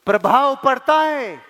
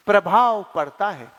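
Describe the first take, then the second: First: प्रभाव पड़ता है proclaimed, stress on पड़ता; emphatic point. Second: Said in the usual way. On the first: Shown as a demonstration. Speaker drives home his point to the audience, stressing पड़ता. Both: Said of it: "मैं तो आपको सिर्फ ये कहना चाह रहा हूं".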